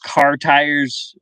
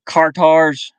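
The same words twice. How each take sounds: First: Car tires with a full clear "tires"; careful car tires. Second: Car tars, "tires" flattened to "tars"; Southern accent. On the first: Streamer showing the standard way to say tires, slow. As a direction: say "tires" slowly with a full vowel. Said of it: "it was like, I". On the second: Streamer showing how tires sounded down South, in a Southern accent. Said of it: "or, like". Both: Shown as a demonstration.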